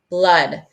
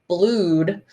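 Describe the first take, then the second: First: The vowel is a short uh sound. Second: The vowel is a long oo sound. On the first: The speaker calls it right. "I hear the uh sound" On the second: The speaker calls it wrong. "it doesn't say blued if you're doing the double O"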